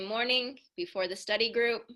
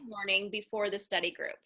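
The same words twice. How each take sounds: First: The pitch swings upward through the phrase. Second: The pitch comes down through the phrase. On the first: The speaker calls it wrong. "there was kind of this upswing to the way that you had said that sentence" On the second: The speaker calls it right. "I want you to kind of bring that down"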